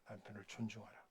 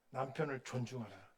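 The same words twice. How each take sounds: First: Soft echo, stress on 존중하라; quiet repeat. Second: 남편을 hit hard, 존중하라 trailing off; stress on 남편을. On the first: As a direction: say 존중하라 again almost under the breath. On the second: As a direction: lean on the word 남편을. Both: Shown as a demonstration.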